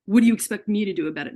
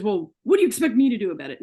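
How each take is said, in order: First: Her own retold yell at the doctor, louder and fast. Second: Imitating the doctor's yell, louder and fast; retold yell. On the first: Sick patient yells back at the ER doctor, loud and fast. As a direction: throw his words back at him, cornered. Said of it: "And I yelled it at him". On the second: ER doctor yells at his sick patient, loud and fast. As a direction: snap it back like a fed-up doctor. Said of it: "And he yelled this at me".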